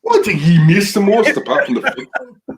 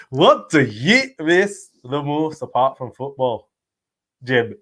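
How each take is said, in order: First: Loud, high-pitched Scottish impersonation; put-on Scottish accent. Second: Slow, drawn-out mock Scottish accent; put-on Scottish accent. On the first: Co-host saying it on request, loud mock Scottish accent. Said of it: "Can you say". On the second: Host echoing co-host's attempt at the question, slow mock Scottish accent. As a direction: stretch the question out in imitation Scottish. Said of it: "I'm trying to say it in his accent".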